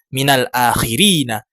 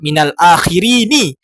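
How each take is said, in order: First: The final n is followed by an a vowel. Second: The final n is followed by an i vowel. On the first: The speaker calls it right. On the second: The speaker calls it wrong. "jangan membaca"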